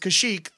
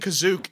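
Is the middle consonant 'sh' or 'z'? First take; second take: sh; z. First: The middle consonant is a 'sh' sound. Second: The middle consonant is a 'z' sound. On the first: The speaker calls it right. "It's Kashyyyk" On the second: The speaker calls it wrong. "they kept saying Kazook, and I thought that they were mispronouncing it"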